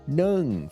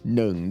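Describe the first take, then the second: First: The word is said on a falling tone. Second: The word is said on a low tone. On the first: It means steam. "Falling tone means steam" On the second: It means one. "That's a low tone, means one"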